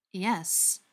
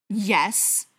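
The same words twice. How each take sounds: First: Slow, measured yes; unhurried, deliberate reply; said slowly. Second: Loud, snarled yes; angry, forceful reply; snarling. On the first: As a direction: draw out the answer slowly. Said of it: "the butcher said slowly". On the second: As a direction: snarl the answer. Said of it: "Briar snarled". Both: A narrator's reading.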